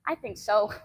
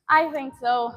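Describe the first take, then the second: First: Said in the usual way. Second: Slower, chuckling through the words; laughing. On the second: Real, not acted. Repeating her own answer to chat with a slow laugh. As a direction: laugh it out, amused.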